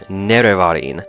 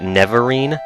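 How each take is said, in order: First: The name is said with four syllables. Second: The name is said with fewer than four syllables. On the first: The speaker calls it right. "it definitely has four syllables. It's Nerevarine" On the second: The speaker calls it wrong. "as a kid, I always just read it Neverine"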